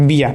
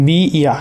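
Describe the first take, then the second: First: "বিয়া" run together as one word, biya; joined sound. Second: "বি ইয়া" said as two separate parts, bi, then iya; separate syllables. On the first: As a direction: blend bi and iya into "বিয়া". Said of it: "এটা ঠিক আছে". ("বিয়া" একসাথে যুক্ত করে উচ্চারণ) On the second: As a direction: keep "বি" and "ইয়া" apart. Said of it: "উচ্চারণটা একটু দেখাই". ("বি ইয়া" আলাদা আলাদা করে উচ্চারণ) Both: Shown as a demonstration.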